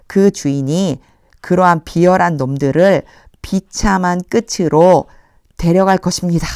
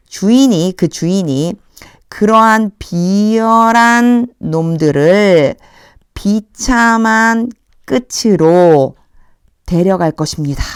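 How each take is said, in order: First: Said in the usual way. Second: Slow, deliberate, weight on 비열한; slow literal reading. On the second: Shown as a demonstration. Teacher reading the literal translation to students, slowly. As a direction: spell out the literal translation word by word. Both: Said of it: "직역을 하면".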